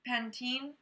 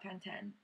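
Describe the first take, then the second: First: The name is said the speaker's usual American way. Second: The name is said the British way. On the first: "There's an E at the end" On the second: "but they just call it Pantene"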